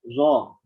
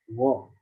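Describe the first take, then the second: First: The first consonant sounds like a z. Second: The first consonant sounds like a throaty gh. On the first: The speaker calls it wrong. "masih mengucapin seperti zai" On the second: The speaker calls it right. "sampai dapat go"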